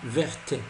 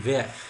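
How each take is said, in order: First: The final t is sounded. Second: The final t is silent. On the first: The speaker calls it wrong. "On ne dit pas verte" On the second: The speaker calls it right. "on dit vert. ces lettres ne se prononcent pas"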